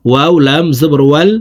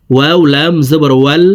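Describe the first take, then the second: No difference in how they are said.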